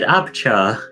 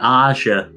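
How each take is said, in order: First: The name has a b sound in the middle. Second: The name has no b sound in the middle. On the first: The speaker calls it wrong. "You just said Abchar" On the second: The speaker calls it right. "No, Aja"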